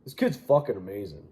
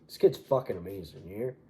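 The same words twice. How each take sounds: First: A touch more promoter hype, still lightly voiced. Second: A badly faked promoter gushing. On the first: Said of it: "What does he sound like?".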